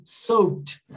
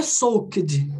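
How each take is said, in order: First: "Soaked" as "sowt", k barely there; subtle consonants. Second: "soaked" with a hard, separate k and d; over-articulate "soaked" as "sok-d"; every letter pronounced. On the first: Teacher repeating it for students, subtle consonants. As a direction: swallow the k in "Soaked". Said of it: "você falou meio que". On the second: Teacher showing what not to do, every letter pronounced. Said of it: "Não é soaked". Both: Shown as a demonstration.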